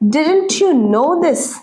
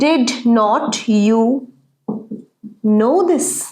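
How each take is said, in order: First: The negative is contracted into one short syllable. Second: The negative is said as two full words.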